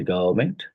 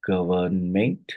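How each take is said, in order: First: Said in the usual way. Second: "government" slowly in three separate syllables. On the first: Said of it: "which of these is a trisyllabic word". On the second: Shown as a demonstration. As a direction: spell out the three beats of "government". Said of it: "So it's a tri".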